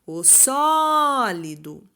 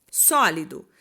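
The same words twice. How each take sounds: First: "sólido" called out with SÓ held long; slow "sólido", all weight on SÓ; calling out stressed syllable. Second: Said in the usual way. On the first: Shown as a demonstration. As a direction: call out "sólido", stretching the SÓ. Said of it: "eu chamei com maior intensidade". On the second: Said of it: "Você vai chamar a palavra sólido".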